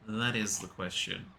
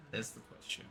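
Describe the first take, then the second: First: Said in the usual way. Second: Breathy whisper, no voice at all. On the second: Shown as a demonstration. Whispering the famous line to the chat as a joke. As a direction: whisper the line as a dramatic aside.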